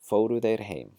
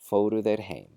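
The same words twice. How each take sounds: The two takes are said the same way.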